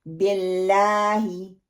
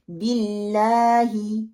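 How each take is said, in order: First: बिल्लाही with thick, dark L, first vowel E; slow BELLAAHI, laam made heavy; heavy laam mistake. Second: बिल्लाही slow, with light L and pure I; thin laam. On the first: Teacher showing the third mistake, thick L in बिल्लाही. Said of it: "लाम को मोटा पढ़ देते हैं". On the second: Teacher modelling बिल्लाही with a thin laam. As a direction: keep the L light in BILLAAHI, long AA. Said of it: "हम उसको बारीक पढ़ते हैं". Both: Shown as a demonstration.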